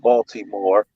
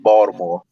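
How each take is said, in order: First: It uses a standard, non-local pronunciation. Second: It uses a local Baltimore pronunciation. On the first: The speaker calls it wrong. "it's not Baltimore" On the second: The speaker calls it right. "if you're a natural Baltimorean, it's Baltimore"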